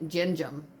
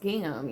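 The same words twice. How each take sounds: First: The word starts with a soft J sound. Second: The word starts with a hard G sound. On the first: The speaker calls it wrong. "they they pronounced this gin, gingham, gingham or something" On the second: The speaker calls it right. "Like it's gingham, you know?"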